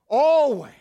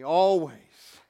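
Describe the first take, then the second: First: "Always" called out loud and high; "Always" shouted high and falling. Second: Said in the usual way. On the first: Shown as a demonstration. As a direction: belt out "Always" as a call to the crowd. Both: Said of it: "Say that word with me".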